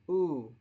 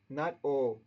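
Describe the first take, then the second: First: The vowel is a close, rounded oo sound. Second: The vowel is a more open oh sound. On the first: The speaker calls it right. "make the lips into a small circle and do the oo sound" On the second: The speaker calls it wrong. "O is wrong"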